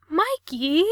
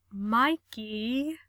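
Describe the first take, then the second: First: High, loud yelp of a name. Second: Said in the usual way. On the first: A narrator's reading. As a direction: cry out in panic as he hangs up. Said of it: "Gerard yelped".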